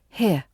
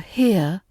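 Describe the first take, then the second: First: The vowel is shortened and barely glides. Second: The vowel glides fully as a diphthong.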